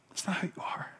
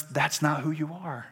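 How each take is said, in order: First: Near-silent whispered repeat. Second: Said in the usual way. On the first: Real, not acted. Preacher reassuring the congregation, whispered. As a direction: drop to a whisper to let it sink in.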